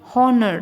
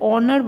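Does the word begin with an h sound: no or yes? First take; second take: yes; no. First: The word starts with an h sound. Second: The word starts with a vowel sound. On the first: The speaker calls it wrong. "हॉनर नहीं बोलते हैं हम" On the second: The speaker calls it right. "ऑनर बोलते हैं"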